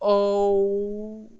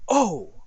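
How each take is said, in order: First: The word is long and drawn out. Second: The word is short and quick. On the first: The speaker is thinking before answering. "we're going to make it longer" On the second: The speaker is surprised. "instead of saying, oh, like surprise"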